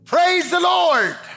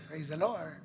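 First: It is said firmly, with force. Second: It is said flatly, without force.

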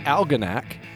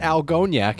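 First: The stress does not fall on the 'o' syllable. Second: The stress falls on the 'o' syllable. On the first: The speaker calls it right. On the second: The speaker calls it wrong.

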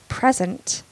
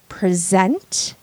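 First: The stress is on the first syllable. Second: The stress is on the second syllable. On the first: It is used as a noun. "when it is a noun, you stress the first syllable" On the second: It is used as a verb. "when it is a verb, you stress the second syllable"

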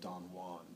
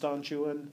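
First: Juan is pronounced in a Spanish way. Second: Juan is pronounced in an English way. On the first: The speaker has not read the poem. The speaker calls it wrong. "someone hasn't studied it or hasn't read it if they ever call it Don Juan" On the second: The speaker knows the poem. The speaker calls it right. "it's pronounced Don Juan. It's spelt J-U-A-N. Byron absolutely and intentionally pronounces in a complete English pronunciation"

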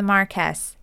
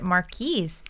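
First: The last syllable rhymes with yes. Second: The last syllable rhymes with ease. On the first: "That's how I pronounce it because it sounds like it rhymes" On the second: "when I was younger, I always pronounced it Marquise"

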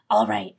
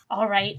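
First: It is said in a put-on character voice. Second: It is said in the speaker's ordinary voice.

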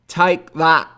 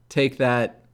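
First: It is said in an attempted Scottish accent. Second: It is said in the speaker's ordinary accent.

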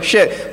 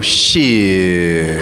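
First: The word is said short and plain. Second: The word is drawn out for a long time.

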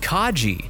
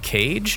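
First: The name is said as two syllables. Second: The name is said as one syllable. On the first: The speaker calls it right. "it's pronounced Kaji" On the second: The speaker calls it wrong. "And I go"

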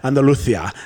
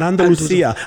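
First: The s sound is lisped like th. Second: The s sound is a plain hissing s. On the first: The speaker calls it right. "There is a little bit of a lisp when they talk in the southern Spain" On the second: The speaker calls it wrong. "not Andalusia"

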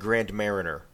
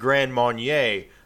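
First: The second word sounds like 'mariner'. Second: The second word sounds like 'marnyay'. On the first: The speaker calls it right. "It's called Grand Mariner" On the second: The speaker calls it wrong. "I think they're mispronouncing it"

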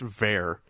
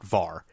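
First: The name rhymes with hair. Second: The name does not rhyme with hair. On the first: The speaker calls it right. "it is pronounced Vare and like hair" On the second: The speaker calls it wrong. "not Var, as I had mistakenly said"

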